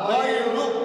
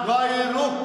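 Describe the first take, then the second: No difference in how they are said.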